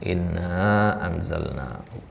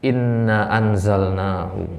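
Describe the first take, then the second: First: The final vowel of inna is long. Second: The final vowel of inna is short. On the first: The speaker calls it right. "Harus inna panjang" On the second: The speaker calls it wrong. "jangan sampai nanti kita baca inna anzalnahu, nggak boleh"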